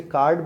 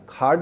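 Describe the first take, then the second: First: کارڈ with a plain, unaspirated K; acceptable pronunciation. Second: کھارڈ with an aspirated K; accented pronunciation. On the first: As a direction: say کارڈ with no puff on the K. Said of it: "بول دیتے ہیں تو بھی چلے گا". (کارڈ سادہ "ک" کے ساتھ) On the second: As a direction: puff air on the K of کھارڈ. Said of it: "pronunciation plus accent آ گیا". (کھارڈ، "ک" ہوا چھوڑتے ہوئے) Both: Shown as a demonstration.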